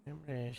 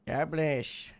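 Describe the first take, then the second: First: Much softer, almost under the breath; a quiet afterthought echo; quiet repeat. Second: Said in the usual way. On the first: Real, not acted. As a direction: murmur the words God bless to yourself.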